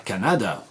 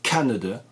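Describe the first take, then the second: First: The stress is on a later syllable. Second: The stress is on the first syllable. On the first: The speaker calls it wrong. "vous ne direz pas Canada" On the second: The speaker calls it right. "ça s'accentue sur la première"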